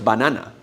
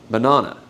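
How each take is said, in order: First: Banana with three open Spanish As; the wrong full-vowel version. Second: Banana as buh-NA-nuh, first and last vowels reduced; the right reduced version; English schwa. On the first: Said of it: "No es banana". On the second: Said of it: "es banana". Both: Shown as a demonstration.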